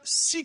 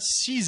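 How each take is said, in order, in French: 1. Le x final ne se prononce pas. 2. Le x final se prononce z. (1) "Il se prononce pas" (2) "Le X, je le prononce Z"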